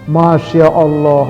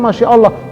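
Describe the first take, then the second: First: It is said in an admiring, delighted tone. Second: It is said in an exasperated, scolding tone. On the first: Something seen is very beautiful. "indah banget ini pemandangan" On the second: Someone is behaving very badly. "cuman tekanannya beda ya"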